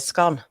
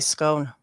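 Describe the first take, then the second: First: It is said with a northern vowel in 'scone'. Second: It is said with a southern vowel in 'scone'. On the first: "I would say scone" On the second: "someone from down south would say scone"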